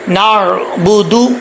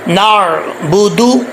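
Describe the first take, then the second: First: The final vowel sounds like 'oo'. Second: The same.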